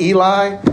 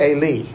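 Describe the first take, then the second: First: Eli said as EE-lye; British-derived pronunciation. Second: Eli said as ay-LEE; Hebrew pronunciation. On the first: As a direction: say Eli ending in a long eye sound. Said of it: "they pronounce long I's". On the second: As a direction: say Eli ending in a long ee, stressed. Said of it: "it's almost always an E sound". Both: Shown as a demonstration.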